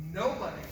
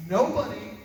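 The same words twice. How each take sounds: First: Said in the usual way. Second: Second nobody punched much louder; repeated nobody hit hard and loud; emphatic repeat. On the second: Shown as a demonstration. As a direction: hammer the word nobody.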